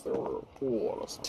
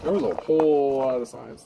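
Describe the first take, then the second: First: Much softer, whispered fix of "were"; whispered correction. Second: Said in the usual way. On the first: Real, not acted. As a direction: breathe the corrected line under your voice.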